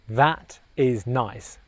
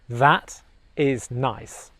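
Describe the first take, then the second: No difference in how they are said.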